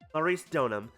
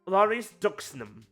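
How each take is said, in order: First: The x sound in the surname is silent. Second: The x sound in the surname is pronounced.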